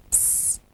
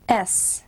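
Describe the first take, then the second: First: "S." as a soft hissed sss, not the letter name; letter sound s. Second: Said in the usual way. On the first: Shown as a demonstration. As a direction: hiss the S sound quietly. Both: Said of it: "Now say it with me".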